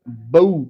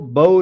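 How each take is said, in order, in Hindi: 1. स्वर धीरे से "a" से "u" की तरफ़ फिसलता है। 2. स्वर सादा लंबा ओ है। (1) "बऊ पढ़ेंगे" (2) "इसको बऊ नहीं पढ़ेंगे"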